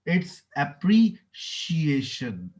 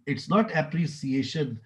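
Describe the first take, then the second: First: The middle consonant is an 'sh' sound. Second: The middle consonant is an 's' sound. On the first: The speaker calls it right. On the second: The speaker calls it wrong.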